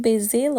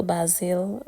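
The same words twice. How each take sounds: First: Basil with a long first vowel, BAY-zil; pronunciation query. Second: Basil with a short first vowel, BAZ-il; alternative pronunciation. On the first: Home cook asking viewers how basil is said, as BAY-zil. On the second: Home cook offering viewers the other basil, as BAZ-il. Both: Shown as a demonstration. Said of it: "Or how do you say it?".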